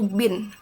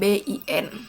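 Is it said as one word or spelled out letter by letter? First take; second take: one word; spelled out. First: It is pronounced as a single word. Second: Each letter is pronounced separately. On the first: The speaker calls it right. "dibacanya itu" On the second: The speaker calls it wrong.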